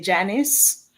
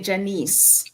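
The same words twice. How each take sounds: First: The name ends in a short 'niss' sound. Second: The name ends in a long 'neece' sound. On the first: This is how most Americans say it. "Most Americans say Janice" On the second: This is how people in Jamaica say it. "in Jamaica we say Janice"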